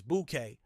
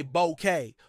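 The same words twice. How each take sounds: First: Bouquet as BOO-kay, first vowel like "boot"; claimed correct bouquet. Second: Bouquet as BOH-kay, first vowel like "go"; American bouquet. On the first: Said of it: "the correct pronunciation is bouquet". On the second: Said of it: "Many Americans say bouquet". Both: Shown as a demonstration.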